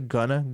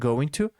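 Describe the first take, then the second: First: The words blend into one reduced form. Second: Both words are said fully and separately.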